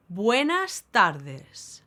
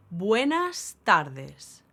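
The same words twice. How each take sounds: The two takes are said the same way.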